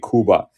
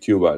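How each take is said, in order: First: It is said the local Spanish way. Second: It is said the usual English way. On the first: "I always say Cuba ... That's how they say it there" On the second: "instead of Cuba"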